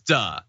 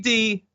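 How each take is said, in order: First: The syllable has an 'uh' vowel. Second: The syllable has an 'ee' vowel. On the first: This is the current pronunciation of the name. "now it's duh" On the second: This is the older pronunciation of the name. "It used to be D"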